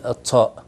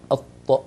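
First: الطاء ending in extra escaping air; over-breathed ta. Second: Firm, unaspirated ط in الطاء; clean emphatic ta. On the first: Teacher shows what not to say, breathy release on ta. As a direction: release the stopped ط of الطاء with an s-like puff. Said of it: "ما نقول". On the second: Teacher shows the right letter, released without extra air. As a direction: say الطاء with a heavy ط and no puff of air. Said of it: "نقول الطاء وليست الط". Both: Shown as a demonstration.

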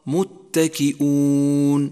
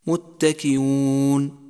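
First: متكئون said as muttaki-'oon with a glottal stop, long final vowel; slow متكئون, hamza fully sounded; clear hamza. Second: متكئون said as muttaki-yoon, long final vowel; slow متكئون with hamza turned to y; softened hamza mistake. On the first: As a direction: catch the voice before the oo in متكئون. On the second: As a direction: glide through متكئون without a glottal stop. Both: Shown as a demonstration. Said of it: "والصواب".

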